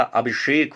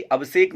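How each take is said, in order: First: अभिषेक with 'sh', abhishek; correct pronunciation. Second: अभिषेक with a plain 's', abhisek; wrong pronunciation. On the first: Teacher correcting the error, अभिषेक as abhishek. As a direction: say अभिषेक slowly, lower, with a clear 'sh'. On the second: Teacher showing a common error, अभिषेक as abhisek. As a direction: say अभिषेक with 's' in place of 'sh'. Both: Shown as a demonstration. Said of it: "अभिषेक होता है".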